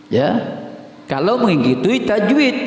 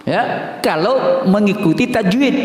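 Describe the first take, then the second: Both takes have the same delivery.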